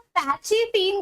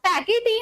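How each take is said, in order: First: The middle consonant is a ch sound. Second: The middle consonant is a k sound. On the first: "पैचीटीन करके भी pronounce कर सकते हो" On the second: "पैकीटीन अगर आप pronounce नहीं करना चाहते"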